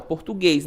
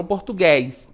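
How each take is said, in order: First: Português with a closed ê in the last syllable. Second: Português with an open é in the last syllable, like -gués. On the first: Teacher showing the som fechado, closed ê in português. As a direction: say português ending in a closed -guês. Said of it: "esse E tem o som fechado". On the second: Teacher showing what it is not, open é in português. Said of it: "não português". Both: Shown as a demonstration.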